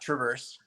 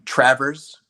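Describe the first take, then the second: First: The first syllable is said weakly. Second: The first syllable is said strongly. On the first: The speaker calls it wrong. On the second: The speaker calls it right. "it's a hard trav"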